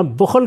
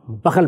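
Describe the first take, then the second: First: بخل said "bukhl", with a u; original reading. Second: بخل said "bakhal", both vowels a; misread form. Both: Shown as a demonstration. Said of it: "بخل کو بخل پڑھ دیا".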